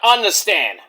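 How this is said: It is drawled with sounds dropped, like 'unnastan'. The speaker calls it right. "U N N A S T A N. ... that drawl like a cowboy would have"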